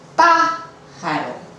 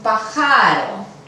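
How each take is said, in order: First: The stress is on the first syllable. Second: The stress is on the second syllable. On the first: The speaker calls it right. "la sílaba tónica no es la penúltima" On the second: The speaker calls it wrong. "No es un pájaro"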